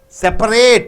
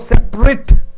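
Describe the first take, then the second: First: Every middle vowel is pronounced separately. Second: A middle vowel is squeezed out. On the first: The speaker calls it wrong. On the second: The speaker calls it right.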